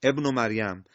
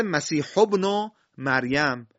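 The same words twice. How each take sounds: First: "ابن" started fresh with a short e/i, ebnu; hamza with kasra. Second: "ابن" run on from "مسیح", its first vowel dropped; joined recitation. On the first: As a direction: begin "ابن" on a voiced kasra. (شروع «ابن» با همزهٔ مکسور) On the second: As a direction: link "مسیح ابن" as masihu-bnu, no break. (وصل «ابن» به کلمهٔ قبل، بدون تلفظ همزه) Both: Shown as a demonstration.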